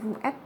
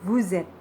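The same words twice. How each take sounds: First: The s of vous is silent, words separate. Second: The s of vous links as a z sound. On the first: The speaker calls it wrong. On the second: The speaker calls it right. "juga menjadi"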